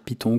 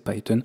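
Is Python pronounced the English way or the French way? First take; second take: French; English. First: It is pronounced the French way. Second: It is pronounced the English way. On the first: The name is said like the French word for the snake. "comme finalement le nom du serpent que nous avons en français" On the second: The name is kept in its original form. "généralement je prends l'habitude de le prononcer Python"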